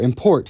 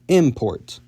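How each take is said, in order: First: The stress is on the second syllable. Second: The stress is on the first syllable. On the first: It is used as a verb. "move the stress from the second syllable" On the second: It is used as a noun. "to the first"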